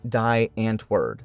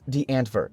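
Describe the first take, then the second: First: The name is said with English letter sounds. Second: The name is said with Afrikaans letter sounds. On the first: "if pronounced as spelt by an English person, would probably sound something like" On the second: "Being an Afrikaans word, it is pronounced"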